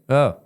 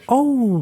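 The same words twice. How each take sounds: First: No customer-service lift at all; indifferent. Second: High, put-on customer-service "oh"; mock an eager, apologetic server; pitched way up, over-attentive. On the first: Retold or imitated. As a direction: imitate a server who doesn't care. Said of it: "he didn't go like, ... customer service". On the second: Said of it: "like customer service".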